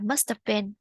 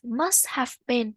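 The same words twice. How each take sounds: First: The word 'have' is reduced to a weak 'of'. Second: The word 'have' is pronounced fully and clearly. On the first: "thường thì họ sẽ đọc là" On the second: "rất là ít khi họ đọc rõ là have"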